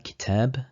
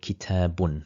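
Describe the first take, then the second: First: The word ends on a bare b sound. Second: The word ends with an added -un sound. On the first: "we make the last letter sakin" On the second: "pronouncing the complete word with its harakah"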